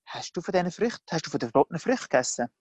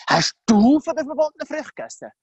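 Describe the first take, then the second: First: Said in the usual way. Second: Heavy, high-pitched punch on "du"; stress on DU. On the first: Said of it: "auf der Betonung liegt so ein grosser Unterschied". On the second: Shown as a demonstration. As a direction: hit "du" hard as an accusation. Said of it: "Betonung nicht aufs Du da".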